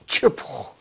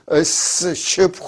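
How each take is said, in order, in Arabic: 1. تبدأ بصوت تش واحد. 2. تبدأ بصوت س وصوت ش منفصلين. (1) "لا تشبخ" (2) "ما بتقول اس شبخ"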